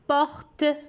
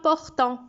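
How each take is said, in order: First: The word ends on a plain T sound. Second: The word ends with a nasal vowel sound. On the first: The speaker calls it right. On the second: The speaker calls it wrong. "On ne prononce pas portant"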